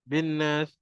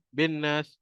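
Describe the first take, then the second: The two takes are said the same way.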